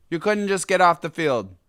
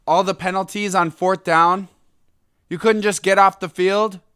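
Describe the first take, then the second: First: Raised complaint that falls at the end; indignant, settling into resignation; exasperated. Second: Loud, raised, incredulous complaint; high-pitched exasperated disbelief; indignant. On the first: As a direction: repeat it as a fed-up statement, letting it drop. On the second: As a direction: throw it out as an outraged question. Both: Real, not acted. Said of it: "It's so ridiculous".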